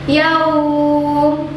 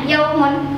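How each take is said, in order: First: The soft vowel sound is drawn out long. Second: The soft vowel sound is kept short. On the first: "ketika dia panjang" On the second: "kalau dia nggak sukun, dia hanya lin saja"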